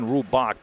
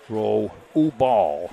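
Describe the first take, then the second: First: The name ends with a K sound. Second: The name ends with an L sound. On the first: The speaker calls it wrong. "I've been saying Rubak" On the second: The speaker calls it right. "It's an L, not a C there"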